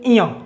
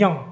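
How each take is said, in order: First: The nasal starts with an extra vowel sound. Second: The nasal sound is said on its own. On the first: The speaker calls it wrong. "कुछ लोग बोलते हैं इया, not इया" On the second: The speaker calls it right. "यह है या"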